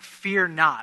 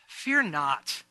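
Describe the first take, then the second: First: The words are said in a scolding tone. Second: The words are said in a warm tone. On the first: The speaker is condemning the listener. "or I'm kind of condemning Matt" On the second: The speaker is encouraging the listener. "I could have kind of this tone in my voice"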